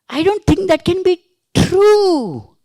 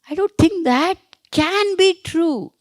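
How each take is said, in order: First: The stress falls on the word true. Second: The stress falls on the word can. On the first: The statement may be false. "It may be false" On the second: It is doubted that it could actually happen. "That means you're stressing on that happening"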